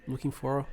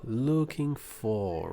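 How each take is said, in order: First: Said in the usual way. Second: Looking for drawn out slowly; very slow classroom demo of looking for; slow model phrase. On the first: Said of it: "repete comigo assim". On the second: Shown as a demonstration. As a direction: stretch looking for for learners. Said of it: "looking for, right".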